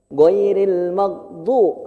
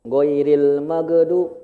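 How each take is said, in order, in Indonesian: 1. Bunyi g berakhir tanpa vokal setelahnya. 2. Ada vokal e tambahan setelah bunyi g. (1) "Goiril mag, mag, nggak mage" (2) "Jangan goiril magedu, magedu jangan"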